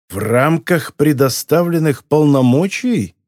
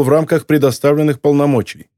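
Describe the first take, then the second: First: Slow, sinister questioning repeat; ominous echo. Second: Said in the usual way. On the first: A narrator's reading. Boss questions his man's excuse, ominous. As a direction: draw the phrase out as a veiled threat. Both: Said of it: "зловеще поинтересовался Моретти".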